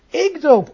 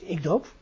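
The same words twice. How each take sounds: First: The word 'ik' gets extra emphasis. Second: Neither word gets special emphasis. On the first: The speaker contrasts himself with someone else. "Dan krijgt de zin een extra nadruk" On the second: It is a plain statement. "het verschil tussen 1 en 2 is dus de nadruk"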